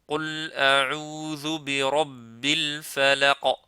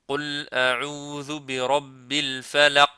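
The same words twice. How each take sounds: First: The final q ends with a short echoing bounce. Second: The final q is muted and almost disappears. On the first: The speaker calls it right. "ça fait qalqalah. C'est-à-dire, on fait comme je, euh, comme je viens de faire" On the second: The speaker calls it wrong. "il ne faut pas le rendre muet ... C'est comme si on l'a fait disparaître"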